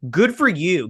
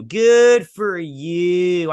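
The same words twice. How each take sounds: First: Said in the usual way. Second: Slow, drawn-out sarcastic good for you; sarcastic drawl. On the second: Shown as a demonstration. Reviewer to fans who liked the finale, in a slow, sarcastic drawl. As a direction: stretch it out, dripping with sarcasm. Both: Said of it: "But if you did".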